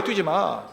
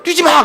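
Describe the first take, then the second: First: Said in the usual way. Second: Higher, louder mock scold; mom's shout. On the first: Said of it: "그래요". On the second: Pastor imitating a mom yelling at her running child. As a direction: bark the order at a running child. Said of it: "근데 엄마는 그래요".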